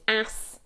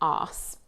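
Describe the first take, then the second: First: It has a short American vowel. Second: It has a long British vowel. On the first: "American English is ass" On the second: "British English is arse"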